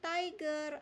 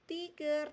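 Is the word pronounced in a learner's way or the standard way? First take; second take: standard way; learner's way. First: The word is said with standard English pronunciation. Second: The word is said with a learner's mispronunciation. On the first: The speaker calls it right. "tetapi tiger" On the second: The speaker calls it wrong. "ini bukan tiger"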